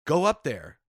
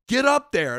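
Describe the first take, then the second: First: Retold manager's raised-voice command; firm order. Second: High, loud retold manager's yell; angry order. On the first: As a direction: push him toward the stage. Manager ordering him onstage. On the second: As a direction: explode at a stubborn employee. Manager escalating his order.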